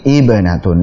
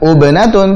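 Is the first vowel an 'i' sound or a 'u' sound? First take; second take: i sound; u sound. First: The word begins with an 'i' vowel. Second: The word begins with a 'u' vowel. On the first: The speaker calls it right. "tapi ibnatun" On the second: The speaker calls it wrong. "bukan ubnatun"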